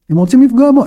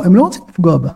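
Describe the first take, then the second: First: בו lifted high at the end; stress on בו. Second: לא punched, then falling away to בה; stress on לא. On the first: Teacher contrasting victims, stress on בו. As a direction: land on בו with a rising tune. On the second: Teacher correcting who is targeted, stress on לא. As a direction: hit לא, let בה drop. Contrasts her with him. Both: Shown as a demonstration.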